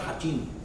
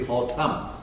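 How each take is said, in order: First: The second syllable has an 'i' vowel. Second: The second syllable has an 'a' vowel. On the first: The speaker calls it wrong. "that Hatim is not Hatim" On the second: The speaker calls it right. "It should be Hatam"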